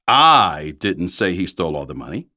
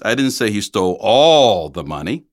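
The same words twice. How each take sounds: First: The stress is on the word I. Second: The stress is on the word all.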